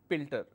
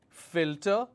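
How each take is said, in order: First: The word begins with a P sound. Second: The word begins with an F sound. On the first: The speaker calls it wrong. "they end up saying pilter" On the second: The speaker calls it right. "I have a word which is filter"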